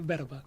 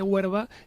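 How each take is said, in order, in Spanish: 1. La palabra empieza con sonido de b. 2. La palabra empieza con sonido de w. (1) "algunos dicen que se dice verba" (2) "Algunos mantienen que se dice huerva"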